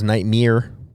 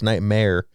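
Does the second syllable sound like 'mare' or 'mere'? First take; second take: mere; mare. First: The second syllable sounds like 'mere'. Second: The second syllable sounds like 'mare'. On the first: The speaker calls it wrong. "thought it was Nightmare" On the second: The speaker calls it right. "like a like a horse, mare, not mere"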